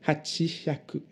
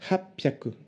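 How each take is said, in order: First: The word keeps a full 'chi' before 'hyaku'. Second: The word is contracted with a doubled p sound. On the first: The speaker calls it wrong. "Ne dites pas hachishaku pour huit cents, ça ne veut rien dire. D'ailleurs, c'est dur à dire" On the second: The speaker calls it right. "pour huit cents, hapyaku"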